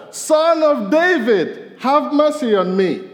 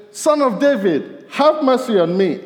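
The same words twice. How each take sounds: First: Very high, slow, loud plea; crying out louder. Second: Calling out. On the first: Preacher voices blind Bartimaeus crying louder to Jesus, slow pleading shout. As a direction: stretch it out and cry it even louder. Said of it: "he cried out all the louder". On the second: Blind man calling to Jesus. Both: Retold or imitated.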